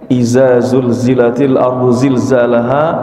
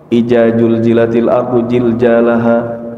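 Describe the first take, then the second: First: The z-like sounds are all z sounds. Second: The z-like sounds are all j sounds. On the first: "zai semua. Harusnya ada huruf dzal" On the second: "Kadang ada yang baca jim semua"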